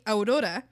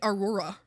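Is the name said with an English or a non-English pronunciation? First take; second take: non-English; English. First: The name is said with a non-English pronunciation. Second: The name is said with a Canadian English pronunciation. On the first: This is how the family says the name. The speaker calls it right. "they couldn't name me Aurora" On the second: This is how the locals mispronounced the name. The speaker calls it wrong. "every Canadian was saying Aurora"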